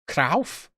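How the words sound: The name is said with a Dutch-style pronunciation. This is an attempt at the more authentic, classy way. "Trying to be classy"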